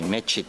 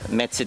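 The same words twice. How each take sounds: First: The middle consonant is a ch sound. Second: The middle consonant is a ts sound. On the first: "а есть чокающие" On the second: "Есть цокающие"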